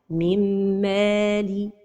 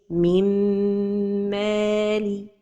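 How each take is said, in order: First: The merged nasal m is clipped short. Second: The merged nasal m is held long. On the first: The speaker calls it wrong. "The first mistake is to pronounce it without a time for the ghunna" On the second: The speaker calls it right. "So the right pronunciation is"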